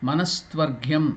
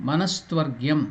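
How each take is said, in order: No difference in how they are said.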